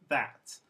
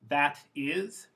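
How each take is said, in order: First: It is said as one contracted syllable. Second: It is said as two full words.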